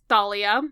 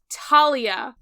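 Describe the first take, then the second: First: The name begins with a th sound. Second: The name begins with a plain t sound. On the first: This is the more Greek way of saying it. The speaker calls it right. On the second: This is the way the movies say it. The speaker calls it wrong.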